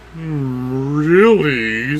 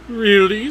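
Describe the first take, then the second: First: The voice sounds low and cow-like. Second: The voice sounds higher and more girly. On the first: The speaker calls it wrong. "she sounds like a cow" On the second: The speaker calls it right. "make her voice more girly"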